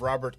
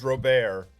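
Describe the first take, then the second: First: The name is said with English pronunciation. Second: The name is said with French pronunciation.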